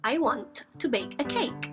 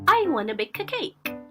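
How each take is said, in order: First: Both words are said fully and separately. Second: The words blend into one short 'wanna'.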